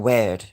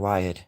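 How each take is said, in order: First: The word is said with the usual 'eer' vowel. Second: The word is said to rhyme with 'fired'. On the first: "Or weird" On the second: "I like pronouncing weird as in wired"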